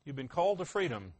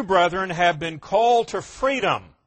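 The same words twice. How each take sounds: First: "You've been called to freedom" said much softer and quicker; quiet echo. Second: Louder, ringing scripture reading. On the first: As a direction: drop to a soft, fast personal aside. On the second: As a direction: proclaim "called to freedom" out to the room. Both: Shown as a demonstration. Reads verse, then echoes it.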